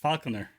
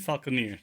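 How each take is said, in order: First: The word ends with a short 'er' sound. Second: The word ends with a long 'eer' sound. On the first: The speaker calls it right. "It's Falconer. My English is right" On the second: The speaker calls it wrong. "what do you mean Falconeer?"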